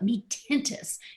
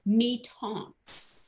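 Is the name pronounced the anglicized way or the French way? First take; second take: anglicized; French. First: The name is given an anglicized pronunciation. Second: The name is given a French pronunciation. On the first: The speaker calls it wrong. "I don't know why they always call it me tintus" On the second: The speaker calls it right. "He says it's me taunts"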